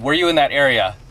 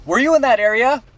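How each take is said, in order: First: Falling close on AREA, near usual pitch; repeated cop question. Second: High, rising question on AREA, timbre shifted; questioning cop. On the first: Cop repeating his question to a silent driver, firm falling demand. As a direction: press the question home, ending AREA downward. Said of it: "did you hear my question". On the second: Cop first questioning the driver he pulled over, high rising question. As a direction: probe with a drawn-up lift into AREA. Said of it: "he starts talking to me serious". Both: Retold or imitated.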